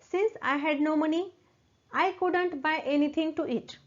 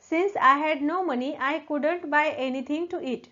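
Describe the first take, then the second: First: There is a short pause after 'money'. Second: The sentence is said without a pause. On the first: "थोडासा pause घेतला तरी चालेल" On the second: "नंतर पूर्ण वाक्य म्हणायचं"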